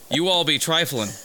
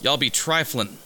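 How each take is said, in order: First: It is said in an exaggerated, very white-sounding voice. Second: It is said in the speaker's ordinary casual voice.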